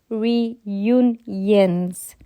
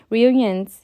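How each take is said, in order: First: The word is said slowly and carefully. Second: The word is said quickly and stumbles. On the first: The speaker calls it right. "I can say it when I say it like that" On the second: The speaker calls it wrong. "when I'm reading fast or I'm, I'm talking fast"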